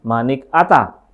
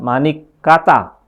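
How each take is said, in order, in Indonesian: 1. Tidak ada bunyi k yang terdengar sebelum 'ata'. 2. Bunyi k terdengar sebelum 'ata'. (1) "ada yang tidak" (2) "ada yang ada huruf K-nya"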